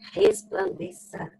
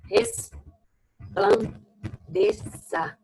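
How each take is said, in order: First: Said in the usual way. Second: Resplandeça stretched out slowly, syllable by syllable; drawn-out syllables. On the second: Shown as a demonstration. Teacher writing the word for students, slow and syllabified. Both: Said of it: "deixa eu colocar aqui entre parênteses".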